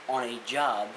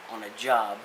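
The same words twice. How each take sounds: The two takes are said the same way.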